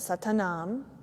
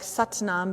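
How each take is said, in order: First: It is said with a vowel after the t. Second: It is said without a vowel after the t. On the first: "there's the A at the end" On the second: "so like Satnam"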